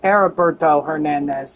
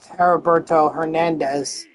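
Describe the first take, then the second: First: The initial H sound is silent. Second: The initial H sound is pronounced. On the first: The speaker calls it right. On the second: The speaker calls it wrong.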